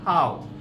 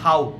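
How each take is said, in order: First: The word is said very softly and gently. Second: The word is said hard and forcefully. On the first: The speaker calls it right. "हाउ बहुत soft बोला जाता है" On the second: The speaker calls it wrong. "That is not हाउ"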